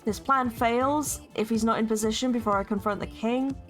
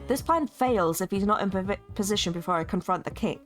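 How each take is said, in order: First: The line is read with awkward, ill-fitting intonation. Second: The line is read with natural, fitting intonation. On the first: The speaker calls it wrong. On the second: The speaker calls it right.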